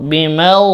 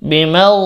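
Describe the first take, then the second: Both takes have the same delivery.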